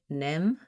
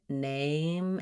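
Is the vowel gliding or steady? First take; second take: steady; gliding. First: The vowel stays steady without gliding. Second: The vowel glides and is held longer. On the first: The speaker calls it wrong. "you might just say nem" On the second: The speaker calls it right. "sliding name and holding that a longer time, closing as you're saying it"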